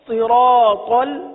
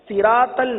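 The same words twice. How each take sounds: First: The s sound is heavy and full. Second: The s sound is light and thin. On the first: The speaker calls it right. "सौद पढ़ेंगे" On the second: The speaker calls it wrong. "सिरातल गलत अदायगी, यानी सीन नहीं पढ़ेंगे"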